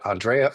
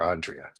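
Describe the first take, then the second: First: The stress is on the second syllable. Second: The stress is on the first syllable. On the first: The speaker calls it right. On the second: The speaker calls it wrong.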